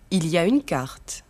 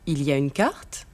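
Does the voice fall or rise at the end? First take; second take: fall; rise. First: The voice falls at the end. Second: The voice rises at the end.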